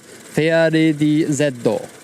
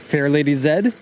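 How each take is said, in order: First: The Z is said as Japanese 'zeddo'. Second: The Z is said as an English letter name.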